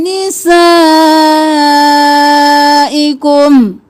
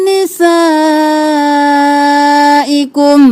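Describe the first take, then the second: The two takes are said the same way.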